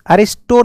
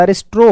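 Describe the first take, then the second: First: अरिस्टो ending in a bare "-sto"; rejected form अरिस्टो. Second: अरिस्ट्रो ending in "-stro"; corrected form अरिस्ट्रो. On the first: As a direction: say अरिस्टो with plain "to", no r after the t. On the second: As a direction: say अरिस्ट्रो with an r after the t. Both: Shown as a demonstration. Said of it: "अरिस्टो नहीं होता, अरिस्ट्रो होता है".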